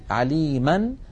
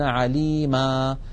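First: The word ends with an n sound. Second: The word ends with a long a vowel. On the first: The word is joined to what follows. "إن كان آخرها فتحة" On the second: The speaker stops on the word. "يحذفون التنوين ويقفون بألف معوضة عن تلك النون"

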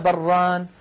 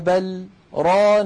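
First: The two words run together without a break. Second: A brief silent break comes without taking a breath. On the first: It could be heard as one word or a dual noun. "ولو وصلناها لقلنا بران" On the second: The particle is separate from the following verb. "سكتت سكتة قصيرة لم أتنفس فيها"

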